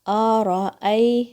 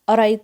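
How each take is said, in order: First: Each sound, including the glottal stops, is pronounced distinctly. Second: The sounds run together, dropping the glottal stops. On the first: The speaker calls it right. "इन सब का आपने हक़ अदा करना है" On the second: The speaker calls it wrong. "ऐसे बोल दिया जाता है जैसे कि ये एक ही साउंड है"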